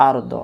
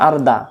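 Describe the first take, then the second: First: আর দ ending in a round "daw"; full round-mouthed আর দ; corrected rounded vowel. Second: আর দা ending in an open "daa"; thin, unrounded আর দা; faulty open vowel. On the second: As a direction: mimic the mistaken "ar-daa". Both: Shown as a demonstration. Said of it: "না আর দা, না হুজুর".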